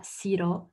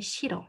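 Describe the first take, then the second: First: "siro" with a plain s at the start; wrong siro. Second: "shiro" starting with a soft sh; correct shiro. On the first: Teacher showing the mistake to avoid, plain s demo. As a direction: say "siro" with s, not sh. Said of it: "C'est pas siro". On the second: Teacher correcting to the Korean sound, sh demo. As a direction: say "shiro" with sh before the i. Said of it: "c'est shiro". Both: Shown as a demonstration.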